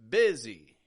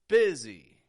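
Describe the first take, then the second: The two takes are said the same way.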